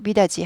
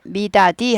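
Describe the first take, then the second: First: The third syllable is a soft ji sound. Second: The third syllable is a hard di sound. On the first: The speaker calls it right. "미다지 하죠" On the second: The speaker calls it wrong. "미다디 하지 않고"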